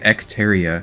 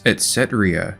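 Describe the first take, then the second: First: The name begins with the sounds 'ec'. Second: The name begins with the sounds 'etc'. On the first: The speaker had misread the name. The speaker calls it wrong. "I've been calling it Ecteria because I never actually slowed down and read the actual word" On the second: This is the name's actual form. The speaker calls it right. "But the name of this little kingdom is Etcetria"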